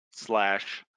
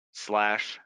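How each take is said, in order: Both takes have the same delivery.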